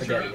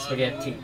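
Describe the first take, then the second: First: The middle t sound is short and single. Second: The middle t sound is held long and doubled. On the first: The speaker calls it wrong. "It's not" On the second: The speaker calls it right. "in Italian you pronounce every single letter. Even if it's two in a row"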